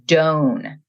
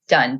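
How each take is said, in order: First: The vowel is a long 'oh' sound. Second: The vowel is a short 'uh' sound.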